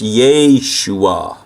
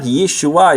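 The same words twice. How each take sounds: First: The first vowel is a long 'ay' sound. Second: The first vowel is a short 'e' sound. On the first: The speaker calls it right. "it sounds more like an A sound" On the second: The speaker calls it wrong. "But it's not Yeshua"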